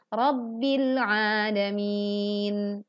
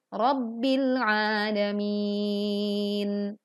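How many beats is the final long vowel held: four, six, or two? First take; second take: two; four. First: The long vowel before the end lasts two beats. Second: The long vowel before the end lasts four beats. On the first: "yang dua harokat" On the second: "empat harokat"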